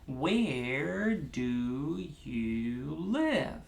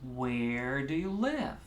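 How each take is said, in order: First: Slow, with each syllable given its own beat. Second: Fast, close to normal pace, with two beats. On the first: "Let's start with four, one finger, one syllable" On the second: "Where do you live is pretty much regular pace"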